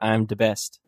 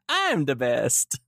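First: It is said in his normal voice. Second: It is said in a put-on Mario voice.

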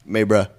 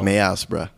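First: The first word has one syllable, 'may'. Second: The first word has two syllables, 'may-as'. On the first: This is how locals say it. The speaker calls it right. "I didn't know how to pronounce May. Maybra" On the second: This is how an outsider reads the spelling. The speaker calls it wrong. "You would say like Mayas"

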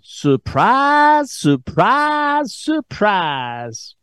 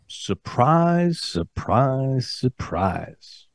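First: It is said in an exaggerated Southern US accent. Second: It is said in the speaker's ordinary accent.

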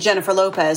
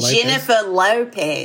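First: It is said in a plain American accent. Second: It is said with a strong Australian accent. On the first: "where you start with [name]" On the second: "and then you get to [name]"

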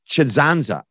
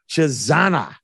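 First: The name is said with an extra z sound. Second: The name is said with a single z sound. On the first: The speaker calls it wrong. "I threw an extra Z in there" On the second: The speaker calls it right. "It's Adrian Brady Chizanza"

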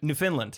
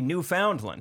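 First: The middle part 'found' is reduced, with the stress on 'land'. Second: The middle part 'found' is said fully, like 'new found land'. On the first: This is how the name is actually said. "It's Newfoundland" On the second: This is how the speaker thinks the name should sound. "I feel like it should be Newfoundland"

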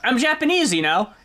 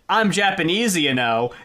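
First: It is said in a light, casual tone. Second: It is said in a pointed, lecturing tone. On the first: She is just chatting about herself. "that's like conversational" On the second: She is trying to teach the listener something. "that's more like she's trying to teach us a thing or two"

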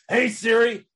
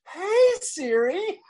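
First: It is said in an angry voice. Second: It is said in a happy voice.

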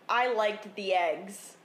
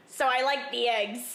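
First: It is said in a plain voice. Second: It imitates the kid's voice.

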